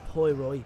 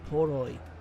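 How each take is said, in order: First: The first vowel glides, like 'poy'. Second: The first vowel is a plain 'o'. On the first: The speaker calls it wrong. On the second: The speaker calls it right.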